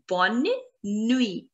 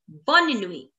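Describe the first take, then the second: First: Bonne, pause, nuit, carefully separated; word by word. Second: Said in the usual way. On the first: Shown as a demonstration. Teacher drills good night for learners, Bonne nuit split in two.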